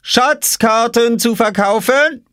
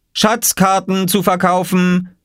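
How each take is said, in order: First: Very high, slow sing-song offer; calling sweetly. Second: Higher, slow call like a little vendor. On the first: Oskar offering Jule a map, sly sing-song. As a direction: dangle the offer slyly. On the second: Oskar calling to passers-by, selling maps. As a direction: cry out the wares slowly. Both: A narrator's reading. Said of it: "rief Oskar".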